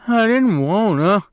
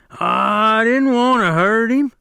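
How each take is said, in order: First: High, louder tearful wail; crying. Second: Very high, slow, louder tearful plea; crying. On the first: Lennie to Slim and George, high tearful wail. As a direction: plead through tears. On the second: Lennie begging after crushing Curly's hand, slow high wail. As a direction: wail it out helplessly. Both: Acted. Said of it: "Lenny cried".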